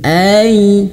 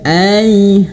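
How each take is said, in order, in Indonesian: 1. Bunyi ai itu lembut dan halus. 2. Bunyi ai itu lembut dan halus.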